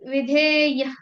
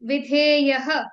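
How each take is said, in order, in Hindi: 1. अंतिम विसर्ग छोटा कटा हुआ होता है, केवल आधा बोला जाता है। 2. अंतिम विसर्ग पूरा बोला जाता है, साथ में एक गूँज वाला स्वर आता है। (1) "ये हमने हाफ प्रोनाउंस किया।" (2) "ऐसा प्रोनाउंस नहीं करना है।"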